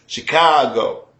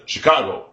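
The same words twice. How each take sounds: First: "Chicago" with the middle "ca" dragged out long; slow native "Chicago", lingering on the "ca". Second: Said in the usual way. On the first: Shown as a demonstration. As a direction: stretch the middle syllable of "Chicago". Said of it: "you drag out the cop". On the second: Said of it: "Instead of Chicago".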